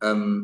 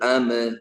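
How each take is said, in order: First: The final consonant is held without any release. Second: The final consonant is released with a slight bounce. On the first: The speaker calls it right. "അപ്പൊ അം എന്നാ ഉച്ചരിക്കുന്നത്" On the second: The speaker calls it wrong. "അമ് എന്ന് പറഞ്ഞാൽ ഖൽഖലയായി"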